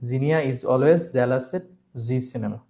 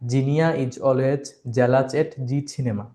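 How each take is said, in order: First: The z sounds are said as true z sounds. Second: The z sounds are said as j sounds. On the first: The speaker calls it right. "তো এটাকে জেড বলতে হবে" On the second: The speaker calls it wrong. "অনেকে আছেন জেড কে জ বলেন, তখন তিনি এটাকে বলেন এভাবে"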